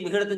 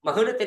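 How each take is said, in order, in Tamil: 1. முதல் உயிர் ஒலி i ஒலி. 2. முதல் உயிர் ஒலி a ஒலி. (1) "மீமுக்கு கஸ்ர வச்சு மிஹனத் சொல்றாங்க" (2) "மீமுக்கு ஃபதஹ வச்சு மஹனத்"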